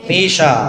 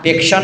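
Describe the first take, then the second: First: The sh sound comes with no k before it. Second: A k sound comes before the sh sound. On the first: The speaker calls it right. "पेशा पेशा है ना" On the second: The speaker calls it wrong. "पेक्षा नहीं बोलना है, अनुप्रेक्षा वाला पेक्षा नहीं बोलना है"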